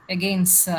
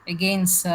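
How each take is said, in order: No difference in how they are said.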